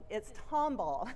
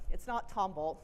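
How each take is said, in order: First: "Tomball" said the local way, run together as one word. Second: "Tomball" said the wrong way, like "Tom Ball". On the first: A Texan telling the room how locals say it. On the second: A local correcting visitors, wrong way first. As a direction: give "Tomball" the outsider's reading as "Tom Ball". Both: Shown as a demonstration.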